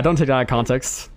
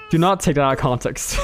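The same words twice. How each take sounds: First: Said in the usual way. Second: "not" set apart and firmly stressed; emphatic "not", each word distinct. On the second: Real, not acted. Repeats the warning, spelling out NOT.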